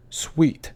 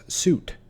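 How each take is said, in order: First: Suite said like sweet; correct pronunciation. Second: Suite said like suit; common mispronunciation. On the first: Teacher showing viewers the right way. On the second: Teacher showing viewers the wrong way. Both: Shown as a demonstration. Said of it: "often mispronounced as suit".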